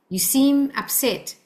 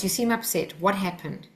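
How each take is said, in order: First: "You seem upset" drawn out, pitched up on "seem"; slow, emphatic. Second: Calm, understated observation; gently name what you see, without pressure. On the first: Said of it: "Cal-, with a calm voice". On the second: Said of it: "with a calm voice". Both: Shown as a demonstration.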